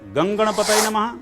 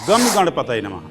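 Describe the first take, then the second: First: The first word ends in a nasalized vowel. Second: The first word ends with a full m sound. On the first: The speaker calls it right. "जिसमें गा के ऊपर बिंदी रखी हुई है" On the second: The speaker calls it wrong. "जिसमें गा और मां है"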